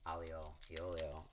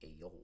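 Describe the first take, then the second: First: It is said in a standard Italian way. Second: It is said in an Italian-American way. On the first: "which directly translates to garlic and oil" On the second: "as Italian Americans say, you have to make this move"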